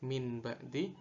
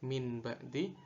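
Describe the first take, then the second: First: The nasal before b is an n sound. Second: The same.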